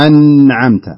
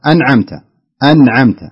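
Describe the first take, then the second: First: أنعمت with the "n" held and pressed, slow and loud; wrong leaned-on nūn. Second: أنعمت with a short, pure "n"; clear unheld nūn. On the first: Teacher mimicking caller's error, dragged nūn in أنعمت. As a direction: lean long on the ن of أنعمت. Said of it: "لا تتك عليه، لا تقول". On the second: Teacher correcting caller, short pure nūn in أنعمت. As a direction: release the ن of أنعمت without leaning on it. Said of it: "نون ساكنة خالصة". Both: Shown as a demonstration.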